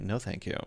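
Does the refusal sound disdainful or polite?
disdainful. It is said in a disdainful, snobbish tone. The offered coffee is beneath the speaker. The speaker calls it wrong.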